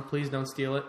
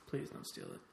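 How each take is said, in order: First: Said in the usual way. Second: Mock-secret whispered plea. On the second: Repeats plea, then whispers it.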